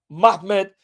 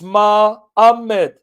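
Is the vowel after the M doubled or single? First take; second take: single; doubled. First: The vowel after the M is single. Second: The vowel after the M is doubled. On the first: The speaker calls it wrong. "The two alphas means it's not Mahmed" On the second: The speaker calls it right. "if you have two alphas"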